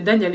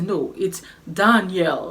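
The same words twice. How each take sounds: First: Said in the usual way. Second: "Daniel" said the English way, stress on DAN, slowly; English pronunciation. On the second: Retold or imitated. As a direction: correct her with an English "Daniel". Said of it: "je disais Daniel, il me faisait".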